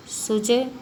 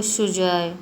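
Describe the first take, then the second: First: Said in the usual way. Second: सुजय with sh, like shujoy; Bengali pronunciation. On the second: Shown as a demonstration. Teacher showing how Bengalis say it, sh-sound सुजय. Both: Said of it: "जैसे बंगाली व्यक्ति".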